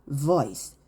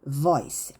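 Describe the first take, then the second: The two takes are said the same way.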